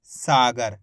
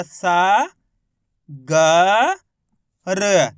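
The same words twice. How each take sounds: First: Said in the usual way. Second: सा, ग, र each held alone with pauses; letter by letter. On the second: Shown as a demonstration. Teacher spelling for learners, सा ग र in separated long sounds. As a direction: sound out सा ग र piece by piece. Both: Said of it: "तो मिलके बन गया".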